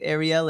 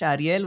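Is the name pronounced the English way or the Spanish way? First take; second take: English; Spanish. First: The name is pronounced the English way. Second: The name is pronounced the Spanish way. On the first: "in English" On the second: "We can say your name in Spanish"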